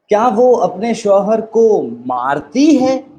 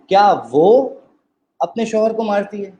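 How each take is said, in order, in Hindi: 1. ज़ोर "मारती" शब्द पर पड़ता है। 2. ज़ोर "वो" शब्द पर पड़ता है। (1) "अब एम्फसिस कहाँ आ गया? मारती है।" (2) "दूसरी दफ़ा में क्या है"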